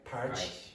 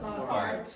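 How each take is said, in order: First: It ends in a ch sound. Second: It ends in a plain t sound.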